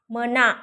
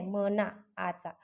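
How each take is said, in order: First: मना called out much louder, final ना hit; loud word demo. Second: मना, आचा said slowly with the final आ stretched; slow drawn-out demo. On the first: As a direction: punch मना loudly for the class. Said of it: "आचा उच्चार होतो का नाही". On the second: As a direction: drag out the आ at the end of मना. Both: Shown as a demonstration.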